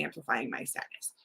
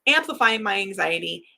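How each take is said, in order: First: Softer and lower, trailing off to a breathy whisper; fading to a whisper. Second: Said in the usual way. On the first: Real, not acted. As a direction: let amplifying my sadness die away into a whisper. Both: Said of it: "And all of that came true".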